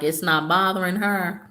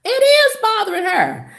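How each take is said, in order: First: Said in the usual way. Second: "is" punched high in quick rebuttal; stress on IS. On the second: Real, not acted. Speaker contradicting the girl's pretence, stress on "is". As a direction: hit "is" hard and high to contradict.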